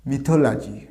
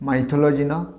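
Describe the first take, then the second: First: "mythology" with a short মি, ending লাজি; correct pronunciation. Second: "mythology" said মাইথোলজি, with a long মাই; wrong pronunciation. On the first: Teacher correcting the class on the word, carefully. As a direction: say "mythology" as মিথোলাজি, not মাইথোলজি. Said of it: "তাহলে উচ্চারণ হবে". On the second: Teacher showing the mistake to avoid, plainly. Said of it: "not the". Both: Shown as a demonstration.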